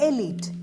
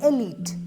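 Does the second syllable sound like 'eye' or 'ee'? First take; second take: ee; ee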